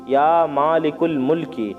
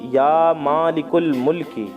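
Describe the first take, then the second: The two takes are said the same way.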